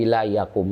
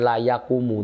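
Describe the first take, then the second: First: The verb stops on the final consonant. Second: The verb ends with a final u vowel. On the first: The speaker calls it right. "tapi la yakum, itu mesti disukun" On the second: The speaker calls it wrong. "bukan la yakumu"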